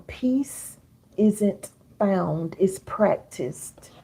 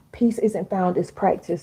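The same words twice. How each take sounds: First: Very slow, every word spaced out; slow, deliberate quotable line; slow dictation. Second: Said in the usual way. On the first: Shown as a demonstration. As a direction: dictate it slowly so they can write "Peace isn't found, it's practiced". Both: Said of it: "Write this down".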